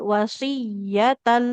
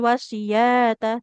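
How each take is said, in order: First: The 'y' is doubled and its vowel is short. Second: The 'y' vowel is stretched long, not doubled. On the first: The speaker calls it right. "tapi wasiyatan" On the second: The speaker calls it wrong. "ya-nya nggak panjang tapi ya-nya bertasydid bukan wasiyata"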